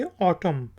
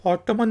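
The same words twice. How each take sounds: First: ऑटम ending on M, no N; ऑटम said as "aw-tum"; silent N. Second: ऑटमन with the final N sounded; ऑटमन ending on a clear N; wrong take with N. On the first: Teacher corrects it, ऑटम with the N silent. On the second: Teacher shows the wrong ऑटमन with the N. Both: Shown as a demonstration. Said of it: "ऑटमन नहीं कहेंगे".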